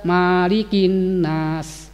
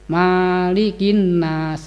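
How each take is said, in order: Both takes have the same delivery.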